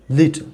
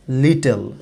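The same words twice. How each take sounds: First: "লিটল" short, the ending swallowed into the l; weak final syllable. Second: "লিটল" with a full "tel" second syllable; mispronounced লিটল. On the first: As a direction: say "লিটল" with stress first and almost no second vowel. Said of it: "শেষের দিকে এসে দেখেন stress". ("লিটল"-এর শেষটা দুর্বল করে বলা) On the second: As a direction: say "লিটল" as lee-tel, both syllables fully voiced. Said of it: "but এটা লিটল হবে না". ("লিটল"-কে ভুল করে লি-টেল বলা) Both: Shown as a demonstration.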